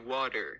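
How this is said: It is said in an American way. "they say water"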